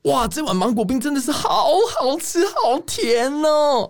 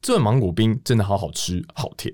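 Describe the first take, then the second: First: It is said in a lively food-show tone. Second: It is said in a serious newscaster tone.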